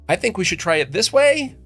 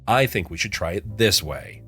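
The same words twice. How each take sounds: First: It sounds unsure, like asking permission. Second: It sounds confident, with the voice dropping.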